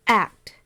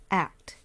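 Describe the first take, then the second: First: A single firm beat, louder; clap out one beat. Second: Said in the usual way. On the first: Shown as a demonstration. Teacher demonstrating for students, one beat. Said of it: "let's listen". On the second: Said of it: "one hand clap".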